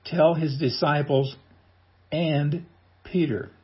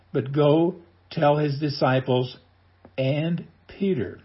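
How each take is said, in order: First: Slow, weighty "and Peter." with Peter held long and falling; stress on and Peter. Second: Slow quoted verse. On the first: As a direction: linger on "and Peter." as the point. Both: Shown as a demonstration. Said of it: "Did you get that?".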